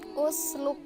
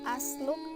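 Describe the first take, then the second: First: The word begins with a u vowel. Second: The word begins with an a vowel. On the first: The speaker calls it right. "harus dibaca u" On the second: The speaker calls it wrong. "nggak boleh jadi asluk"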